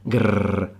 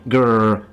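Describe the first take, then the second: First: The R is a vibrating trill. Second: The R is a growled English R. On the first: The speaker calls it right. "it's supposed to vibrate at the same time" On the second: The speaker calls it wrong. "If you do it with an English R"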